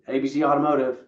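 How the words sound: The voice is flat and cold. The caller feels unwelcome. The speaker calls it wrong. "it was really cold"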